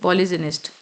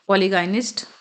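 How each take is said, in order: First: The consonant after poly is a j sound. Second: The consonant after poly is a hard g. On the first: The speaker calls it right. "Sorry पॉलीजिनिस्ट" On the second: The speaker calls it wrong. "Not पॉलीगाइनिस्ट"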